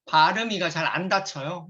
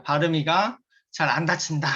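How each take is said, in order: First: Slurred speech from braces; braces lisp. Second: Imitating a Korean-American saying 발음이가 with a cute lilt; light Korean-American accent on 발음이가, playful. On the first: Real, not acted. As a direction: loose consonants through braces. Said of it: "제가 지금 치아 교정 중이에요". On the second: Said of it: "이렇게 표현하길래 제가 흉내 내봤어요".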